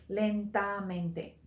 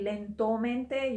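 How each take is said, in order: First: Lentamente with a clear a before -mente; lentamente, a before mente, the right form; correct form. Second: Lentomente with an o before -mente, the wrong form; wrong ending. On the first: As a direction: say lentamente, stressing the feminine a. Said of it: "you would say lentamente". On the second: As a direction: say lentomente, o in the middle, as a mistake. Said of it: "You would not say lentomente". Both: Shown as a demonstration.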